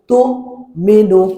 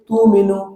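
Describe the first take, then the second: First: A sharp glottal catch comes before the second syllable. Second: The syllables run smoothly with no catch. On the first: The speaker calls it right. "এই যে ধাক্কা দিচ্ছেন, এটা হলো হামজার উচ্চারণ" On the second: The speaker calls it wrong. "যদি এরকম পড়েন তাহলে হামজা উচ্চারণটা বাদ পড়ে যাচ্ছে"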